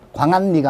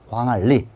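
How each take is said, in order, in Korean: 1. 가운데 자음은 n으로 발음됩니다. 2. 가운데 자음은 l로 발음됩니다. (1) "광안리가 아니라" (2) "잘 봐주시고요"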